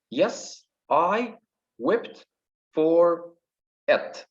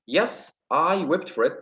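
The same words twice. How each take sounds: First: Higher, one word at a time; syllable by syllable. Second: Said in the usual way. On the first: Shown as a demonstration. Teacher counting five syllables, syllable by syllable. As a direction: count out "Yes, I wept for it" with pauses. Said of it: "Here we got five syllables". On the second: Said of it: "Okay, let's take this".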